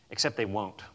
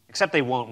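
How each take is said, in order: First: Softer, lower Except they won't; hushed setup before the repeat; quiet first take. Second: They won't said firmly at full voice; confident emphatic answer; firm repeat. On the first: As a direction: drop it in low, a quiet warning. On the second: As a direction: restate it with conviction. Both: Shown as a demonstration.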